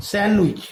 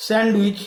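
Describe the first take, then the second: First: স্যান্ডউইচ said as "san-wich"; silent d. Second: স্যান্ডউইচ with the d heard after n; sounded d. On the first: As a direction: go from n straight to w in স্যান্ডউইচ. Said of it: "এখানে ডি এর উচ্চারণ কিন্তু হচ্ছে না". (স্যান্ডউইচ-এ ড বাদ দিয়ে "স্যানউইচ") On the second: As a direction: say স্যান্ডউইচ as spelt, keeping the d. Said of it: "এখানে কি হবে?". (স্যান্ডউইচ-এ ড উচ্চারণ করে) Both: Shown as a demonstration.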